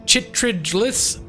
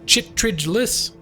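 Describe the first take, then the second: No difference in how they are said.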